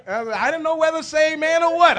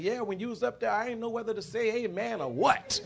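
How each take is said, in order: First: Very high, loud exclamation; shouted punchline. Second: Higher-pitched classmate chiming in; piped up. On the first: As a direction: holler it out at full volume, pitched way up. Shouted repeat of punchline to congregation. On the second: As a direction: pipe up with the remark, voice lifted. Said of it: "one of the girls piped up". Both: Retold or imitated.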